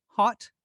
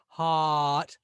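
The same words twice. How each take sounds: First: Said in the usual way. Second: "hot" stretched into haaaht; over-long vowel. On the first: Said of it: "But normally". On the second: Shown as a demonstration. Teacher showing what we don't normally say, drawn-out haaaht. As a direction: hold the vowel of "hot" far too long. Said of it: "we don't normally say hot".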